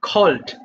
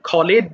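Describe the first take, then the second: First: The ending joins the word as one syllable. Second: The ending is said as an extra syllable. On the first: The speaker calls it right. "খলেট হবে না, simply খল্ড" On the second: The speaker calls it wrong. "অনেকে ভুল করে কলেট বলে ফেলে, খলেট বলে ফেলে"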